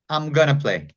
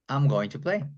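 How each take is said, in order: First: Going to is reduced to a short gonna. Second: Going to is said in full, unreduced. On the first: This is the informal way to say it. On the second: This is the standard, more formal form.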